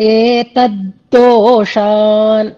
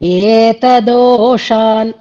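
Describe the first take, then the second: First: The 'd' sound is doubled, held longer. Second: The 'd' sound is single, not doubled. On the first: The speaker calls it right. "దా కింద దావత్తు రావాలన్నమాట" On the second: The speaker calls it wrong. "కానీ ఏతదోషాన్ అంటున్నారు"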